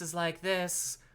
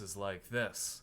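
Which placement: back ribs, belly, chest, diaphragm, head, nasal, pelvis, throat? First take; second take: head; diaphragm. First: The voice sounds high, resonating in the head. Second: The voice sounds supported, pushed from the diaphragm. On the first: "my head voice is like this" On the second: "my diaphragm voice is like this"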